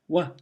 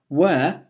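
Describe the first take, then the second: First: It is said with a weak, reduced vowel. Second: It is said with a full, stressed vowel.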